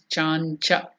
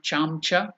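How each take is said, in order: First: The nasal before ch is an n sound. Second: The nasal before ch is an m sound. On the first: The speaker calls it right. "It is Chancha" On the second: The speaker calls it wrong. "Not Chamcha"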